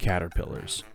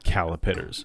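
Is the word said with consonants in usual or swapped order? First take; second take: usual; swapped. First: The consonants come in the usual order. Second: The consonants come in a swapped order. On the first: The speaker calls it right. "say it correctly" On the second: The speaker calls it wrong. "as I used to call them"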